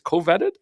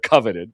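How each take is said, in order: First: The word is split into co plus vetted. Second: The word is said whole, not as vetted. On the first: "if you take off co, I guess you do say vetted" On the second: "I've always said coveted"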